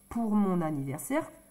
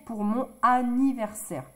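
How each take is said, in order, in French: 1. Le « n » se lie à la voyelle suivante. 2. Le « n » est séparé de la voyelle suivante. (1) "c'est plus joli de dire pour mon anniversaire" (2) "que de dire pour mon anniversaire"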